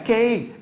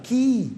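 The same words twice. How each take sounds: First: The vowel is not a long ee. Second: The vowel is a long ee sound. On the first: The speaker calls it wrong. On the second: The speaker calls it right.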